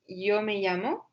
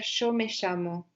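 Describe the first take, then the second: First: It is said in a Spanish accent from Spain. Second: It is said in an Argentine Spanish accent. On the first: "en espagnol de, d'Espagne, on va dire" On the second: "mais en Argentine, on va dire"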